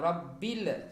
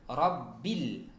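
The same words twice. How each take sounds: First: The l is released with an echoing bounce. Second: The l is held without any bounce. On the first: The speaker calls it wrong. "bukan rabbil" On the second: The speaker calls it right. "jangan sampai muncul ada pantulan"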